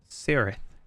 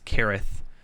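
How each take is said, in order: First: The word begins with an S sound. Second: The word begins with a K sound. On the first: "I always say Cirith anyway" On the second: "Kirith is technically the correct pronunciation"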